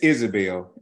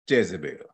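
First: The name starts with a vowel sound. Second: The name starts with a J sound. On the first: The speaker calls it right. "It's how you really pronounce it" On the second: The speaker calls it wrong. "the spirit of Jezebel or Isabel"

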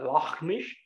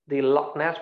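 First: The second word ends with an 'sh' sound. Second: The second word ends with an 's' sound.

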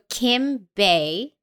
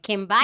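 First: The surname sounds like the word bay. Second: The surname sounds like the word bye. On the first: "so Kim Bay" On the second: "My new favorite way to say your name"

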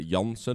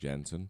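First: The name is said the Dutch way. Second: The name is said the English way.

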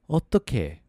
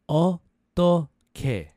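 First: The word is said faster. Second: The word is said slowly. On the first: "A little faster"

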